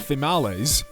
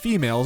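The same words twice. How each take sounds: First: It rhymes with tamales. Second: It does not rhyme with tamales. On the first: "instead of females" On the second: "females is pronounced females"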